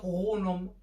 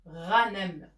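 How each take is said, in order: First: The first vowel is a u sound. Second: The first vowel is an a sound. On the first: The speaker calls it wrong. "on ne peut pas dire غونم. Ça ne se dit pas" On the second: The speaker calls it right. "غنم بالفتحة"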